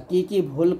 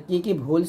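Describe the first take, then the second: No difference in how they are said.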